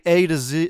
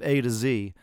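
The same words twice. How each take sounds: First: The letter Z is pronounced 'zed'. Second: The letter Z is pronounced 'zee'. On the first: This is how British speakers say it. "They say A to Z" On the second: This is how American speakers say it. "instead of A to Z"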